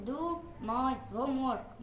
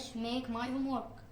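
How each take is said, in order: First: Teacher's correction, do pressed; stress on do. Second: Said in the usual way. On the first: Shown as a demonstration. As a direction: do my homework, with do slow and firm. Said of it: "لازم نقول do my homework". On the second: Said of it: "مش make my homework".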